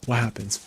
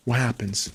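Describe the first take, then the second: No difference in how they are said.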